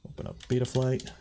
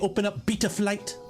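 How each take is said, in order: First: It is said in the speaker's ordinary American accent. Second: It is said in an imitated British accent.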